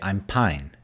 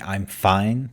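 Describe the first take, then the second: First: The last word starts with a p sound. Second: The last word starts with an f sound. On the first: "p for f" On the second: "instead of saying I'm fine"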